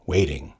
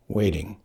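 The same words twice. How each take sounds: The two takes are said the same way.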